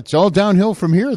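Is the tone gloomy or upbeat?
upbeat. It is said in an upbeat, relieved tone.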